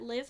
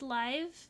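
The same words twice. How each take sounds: First: The vowel is short, rhyming with 'give'. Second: The vowel is long, rhyming with 'five'. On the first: The mode is where the Sims are living. "Some people pronounce that live mode, which kind of makes sense, because, like, your Sims are living" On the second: The game is being played in real time. "but I assumed it was live"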